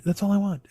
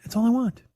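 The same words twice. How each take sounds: First: Said in the usual way. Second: Higher pleading repeat. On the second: Real, not acted. Longing for the green light, pleading higher. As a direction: repeat "That's all I want." pitched higher, pleading. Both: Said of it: "just looking for the green light".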